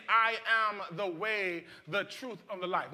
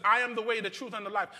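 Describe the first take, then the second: First: Each phrase spoken slowly, weighed word by word; slow and deliberate. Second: Said in the usual way. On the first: Shown as a demonstration. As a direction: let every word of the quote sink in. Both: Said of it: "Jesus is saying".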